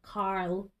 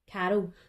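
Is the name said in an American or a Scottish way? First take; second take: American; Scottish. First: The name is said with an American pronunciation. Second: The name is said with a Scottish pronunciation. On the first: "we have to put like an American emphasis on it, like Carl" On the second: "It's a Scottish thing, we say Carol"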